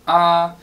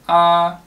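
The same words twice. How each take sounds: First: A level tone on a high pitch. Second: The same.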